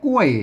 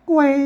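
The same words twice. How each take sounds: First: It has the standard Thai falling tone. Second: Its tone lies midway between falling and high. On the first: "อ่านแบบไทยเป็นอ่านว่ากล้วยนะครับเสียงโทปกติ" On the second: "ต้องอ่านว่ากล้วยอ่าเสียง, โทรพิเศษ"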